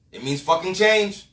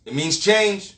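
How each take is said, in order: First: "It means fucking change" slower, with weight on "change"; hard stress on change. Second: Said in the usual way. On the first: Shown as a demonstration. Repeating it to viewers, leaning hard on "change". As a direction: hammer the word "change" slowly.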